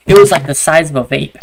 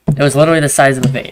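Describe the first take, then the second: First: Louder emphasis on size of a vape; emphatic size. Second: Quick, with literally hit hard; stress on literally. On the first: Telling a friend how small the lost iPod was, emphatic. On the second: Repeating to a friend how tiny it was, quick stress on literally. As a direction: rush it and lean on literally. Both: Real, not acted.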